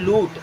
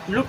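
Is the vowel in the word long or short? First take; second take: long; short. First: The vowel is long, like oo. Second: The vowel is short, like u. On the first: The speaker calls it right. "बड़ा ऊ की तरह भी उच्चारण किया जाता है" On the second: The speaker calls it wrong. "लूट नहीं पढ़ते"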